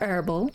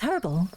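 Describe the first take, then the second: First: The word begins directly with a vowel sound. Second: The word begins with an audible H sound. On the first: The speaker calls it wrong. "Not herbal" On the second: The speaker calls it right. "it's got a H. It's herbal"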